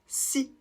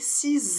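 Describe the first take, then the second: First: The word ends on the vowel, no consonant. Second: The word ends with a Z sound. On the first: A consonant-initial noun follows. "on ne prononce pas le X et on s'arrête donc au I" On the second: A vowel-initial noun follows. "on va faire la liaison en prononçant le X comme un Z"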